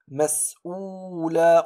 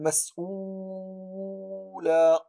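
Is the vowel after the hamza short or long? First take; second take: short; long. First: The vowel after the hamza is held briefly. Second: The vowel after the hamza is drawn out longer. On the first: The speaker calls it right. "هنا مددت حركة فقط" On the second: The speaker calls it wrong. "ولم نقول"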